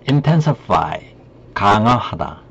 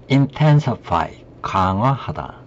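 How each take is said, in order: Both takes have the same delivery.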